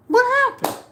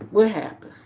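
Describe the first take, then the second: First: Much higher and louder, incredulous squeal; mock disbelief. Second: Said in the usual way. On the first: Real, not acted. Asking viewers what came of the blogger fight, incredulous squeal. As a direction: throw it out in disbelief. Rhetorical question repeated.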